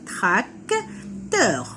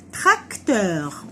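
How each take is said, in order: First: Tracteur split into "trac", pause, "teur"; syllable by syllable. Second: Said in the usual way. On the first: Shown as a demonstration. Teacher counting syllables for children, tracteur broken in two. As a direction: beat out tracteur in two drawn-out pieces. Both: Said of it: "On a deux syllabes".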